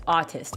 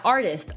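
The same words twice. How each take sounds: First: "autist" with an AW first vowel, no R; autist, not artist. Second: Said in the usual way. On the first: Shown as a demonstration. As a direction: say "autist" clearly without any R. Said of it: "Not artist". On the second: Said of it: "trying to say artist".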